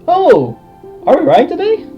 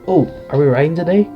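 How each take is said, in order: First: It is said in a normal voice. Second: It is said in a quiet voice.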